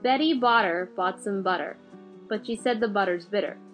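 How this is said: It is said in an American accent.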